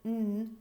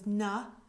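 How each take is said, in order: First: The n sound is said with no vowel after. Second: The n sound ends with a short 'uh' vowel. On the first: The speaker calls it right. "so that n becomes" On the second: The speaker calls it wrong. "If I add the schwa"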